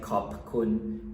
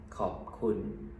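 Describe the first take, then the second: First: The p at the end of khop is audibly released. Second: The mouth closes on khop with a silent p. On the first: The speaker calls it wrong. "instead of saying" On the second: The speaker calls it right. "we just say"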